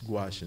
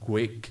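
First: The word ends with an 'sh' sound. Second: The word ends with a 'k' sound. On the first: The speaker calls it right. "No, ang pronunciation yan is gouache" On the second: The speaker calls it wrong. "kung hindi niyo alam yung spelling yan, yung pronunciation yan, baba ang basa niyo yan"

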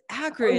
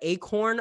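First: It starts with a short 'a', like 'back'. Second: It starts with an 'ay' vowel, like 'acorn'. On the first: The speaker calls it right. "It's Akron" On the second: The speaker calls it wrong. "I would get like Acorn"

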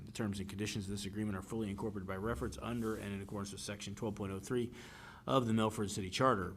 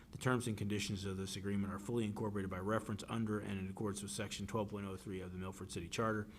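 The two takes are said the same way.

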